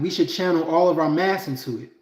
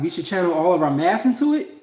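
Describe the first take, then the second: First: The voice falls at the end, like a statement. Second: The voice rises at the end, like a question. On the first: It is a plain statement. The speaker calls it wrong. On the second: It is a question. The speaker calls it right.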